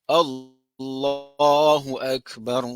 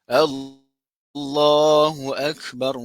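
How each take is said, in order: Both takes have the same delivery.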